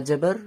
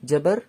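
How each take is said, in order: Both takes have the same delivery.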